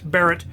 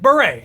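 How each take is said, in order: First: The name sounds like the surname Barrett. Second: The name sounds like the hat, beret. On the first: The speaker calls it wrong. "I always pronounce it Barrett for some reason" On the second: The speaker calls it right. "His channel is Beret, and he sometimes wears a beret"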